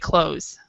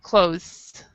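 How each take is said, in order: First: The th sound is dropped, like 'close'. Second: The th sound is clearly pronounced. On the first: "in American English, we do not pronounce the th, so we just say clothes" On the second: "but British English you pronounce this um"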